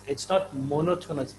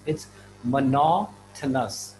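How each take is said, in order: First: Monotonous said MO-no-to-nous with first-syllable stress; wrong stress. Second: Monotonous said mo-NO-to-nous, second syllable stressed, slowly; right stress. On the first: Teacher showing students the wrong monotonous. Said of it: "they've been saying monotonous". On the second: Teacher modelling the right monotonous slowly. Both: Shown as a demonstration.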